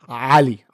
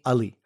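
First: The first vowel is a guttural A. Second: The first vowel is a plain 'uh' sound. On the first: "It's a guttural A" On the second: "That is like almost spelled U-H-L-I"

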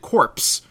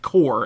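First: The word ends with a 'ps' sound. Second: The word ends without 'p' or 's' sounds. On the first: This is the pronunciation used in the game. "they pronounce it corpse, like as in the corpse" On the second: This is the usual pronunciation of the word. "that is pronounced core, as in army core"

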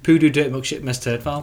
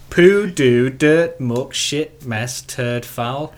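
First: The list is said at a faster pace. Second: The list is said at a slower pace.

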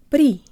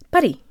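First: The stress falls on the second syllable. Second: The stress falls on the first syllable. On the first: "emphasize the second syllable in putty and say the first syllable so fast you can barely hear it" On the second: "Say the word putty very fast"

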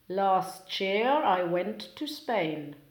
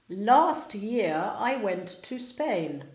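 First: Sounds between words blend and change together. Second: Each word keeps its own separate sounds.

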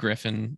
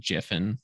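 First: The name begins with a gr sound. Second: The name begins with a j sound. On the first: The speaker calls it wrong. "I called him Griffin" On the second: The speaker calls it right. "It's actually Jiffin"

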